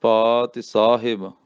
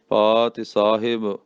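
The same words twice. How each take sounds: First: ਪਾਤਿ with a long aa and short i, then ਸਾਹਿਬ; careful pronunciation. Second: ਪਾਤਿ ਸਾਹਿਬ said clearly with a falling end; careful pronunciation. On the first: Teacher spelling out ਪਾਤਿ ਸਾਹਿਬ for pupils. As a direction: spell it out in sound: paa-ti saa-hib. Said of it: "ਪੱਪੇ ਕੰਨਾ ਤੱਤੇ ਸਿਹਾਰੀ". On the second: Teacher giving the right way to say ਪਾਤਿ ਸਾਹਿਬ. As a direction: repeat ਪਾਤਿ ਸਾਹਿਬ cleanly. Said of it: "ਇਸ ਤਰੀਕੇ ਨਾਲ ਪਾਤਿ ਸਾਹਿਬ". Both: Shown as a demonstration.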